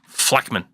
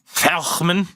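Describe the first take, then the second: First: The middle consonant is a hard, clean sound. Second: The middle consonant is a throaty, guttural sound. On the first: The speaker calls it right. "It's a Fleckman" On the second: The speaker calls it wrong. "there's a lot of phlegm in that pronunciation"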